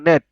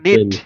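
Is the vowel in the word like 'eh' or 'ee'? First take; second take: eh; ee. First: The vowel sounds like 'eh'. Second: The vowel sounds like 'ee'. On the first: The speaker calls it right. "ই এর উচ্চারণ কি এ" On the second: The speaker calls it wrong. "N ই টি হওয়ার কথা ছিল নিট"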